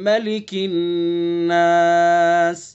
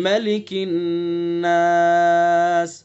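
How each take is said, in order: The two takes are said the same way.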